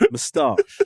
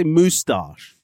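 First: "Moustache" with a short first vowel, "muh-STAHSH"; own pronunciation. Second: "moustache" slowly with a long "moo", "moo-stahsh"; wrong pronunciation. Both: Shown as a demonstration. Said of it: "I didn't say moustache".

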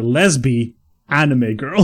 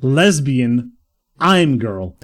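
First: Put-on "lesbi anime girl", anime in three syllables; "anime" said AN-ih-may after "lesbi"; split as lesbi, anime. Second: Put-on slow "I'm girl", anime ending like "I'm"; anime read as "I'm". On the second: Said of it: "I assume it's a portmanteau". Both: Shown as a demonstration.

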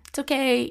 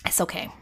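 First: "It's okay" pitched higher and louder, pressing the point home; emphatic reassurance. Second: Gentle reassurance. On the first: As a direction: insist warmly, lifting "okay". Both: Retold or imitated. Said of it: "I wish someone would have just told me".

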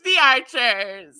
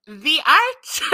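First: Slow, falling vampire drawl; "The Archers" dragged out slowly like a vampire. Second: Rising, dramatic vampire announce; "The Archers" hammed in a vampire voice. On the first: Pretend. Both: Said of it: "why am I got into vampire voice?".

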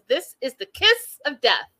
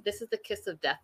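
First: THIS and KISS punched high, with gaps; dramatic emphasis. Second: Said in the usual way. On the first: Real, not acted. Host warning viewers about the relationship, emphatic. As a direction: hit "kiss" hard and spell out the phrase.

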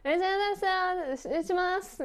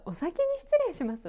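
First: High, mumbled "失礼します", sounds run together; glossed-over sign-off, only the end of "失礼します" clear; slurred but understandable. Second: "お先に失礼します" high and fully pronounced; high, tidy "お先に失礼します" with all sounds intact; neatly said. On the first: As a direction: fudge "失礼します" into a high blur with a lifted ending. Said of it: "なんとなく伝わ". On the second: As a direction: give every sound of "お先に失礼します" in a high, polite voice. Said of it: "そんなに綺麗に言いますか？". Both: Shown as a demonstration.

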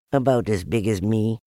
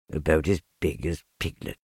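First: Said in the usual way. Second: Low, downcast musing; sad self-talk. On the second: A narrator's reading. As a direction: repeat it sadly to yourself, low. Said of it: "he said to himself, sadly".

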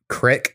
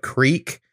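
First: "crick" with a short i, rhyming with brick; southern "crick". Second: Said in the usual way. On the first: Retold or imitated. Call center worker quoting a Southern caller, short-vowel "crick". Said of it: "instead of creek". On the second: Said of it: "they say crick instead of creek".

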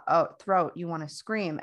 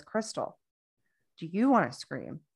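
First: Said in the usual way. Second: "you" lifted in pitch and leaned on; stress on YOU. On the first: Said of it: "he's talking to my centers". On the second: Retold or imitated. Practitioner turning to the whole person, stress on "you". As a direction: put the weight on "you", as opposed to someone else. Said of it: "talk to me as a whole person".

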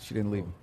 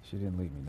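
First: Said in the usual way. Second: Lower, softer, trailing; softer repeat. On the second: Shown as a demonstration. Host correcting the guest, repeating it quieter. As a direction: let it fall away quietly.

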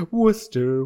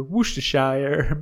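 First: Worcester said "WUSS-ter"; contrasting pronunciation. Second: Worcestershire said "WUSH-tuh-shire"; contrasting pronunciation. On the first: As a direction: say Worcester in two syllables, "WOOS-ter". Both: Shown as a demonstration. Repeats the contrasting names.

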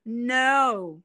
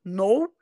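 First: "no" with a long English glide; exaggerated, slow English "no"; stretched English vowel. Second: "No" with a short Portuguese ou; plain Portuguese-sounding "No". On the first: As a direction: draw "no" out slowly through the whole diphthong. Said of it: "é tudo esticado". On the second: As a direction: keep "No" brief, vowel as in Portuguese. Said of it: "é o som do português". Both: Shown as a demonstration.

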